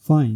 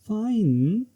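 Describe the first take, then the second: First: It sounds neutral. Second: It sounds doubtful and hesitant. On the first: It means okay. "Neutral में हम use करते हैं ओके।" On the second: It shows hesitation. "Intonation doubt और hesitation को represent करता है।"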